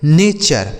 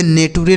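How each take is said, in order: First: नेचर in two syllables, "nay-char"; teacher's model of नेचर, CH in place of T; correct pronunciation demo. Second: नेटुरे read literally as "nay-too-ray"; wrong spelling pronunciation. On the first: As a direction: say नेचर with a CH sound, falling at the end. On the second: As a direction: say नेटुरे with a hard T, three syllables. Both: Shown as a demonstration. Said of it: "इसे नेटुरे नहीं पढ़ेंगे".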